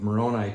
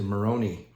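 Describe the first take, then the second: First: The name is said the usual English way. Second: The name is said Italian-style, like Meloni. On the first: "the pronunciation of the name of Moroni" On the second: "it's kind of like Maloney. Sorry, maybe maybe he was Italian"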